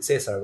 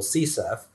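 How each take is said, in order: First: Said in the usual way. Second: "C serf" as one spoken name, see-surf; preferred pronunciation. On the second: Shown as a demonstration. Speaker giving listeners the nickname for CSRF, pronounced "C serf" as see-surf. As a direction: say "C serf" like "sea surf", not spelled out. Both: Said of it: "like to pronounce it".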